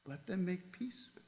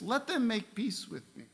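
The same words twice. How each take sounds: First: A much softer repeat with "them" lightly lifted; quiet second "Let them make peace with me"; softer echo. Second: Higher, pressing first take; emphatic plea. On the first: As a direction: let the plea fall away gently. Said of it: "Twice he repeated it". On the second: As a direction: lean on "them" as a pleading call. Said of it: "This is his emphasis". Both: Shown as a demonstration.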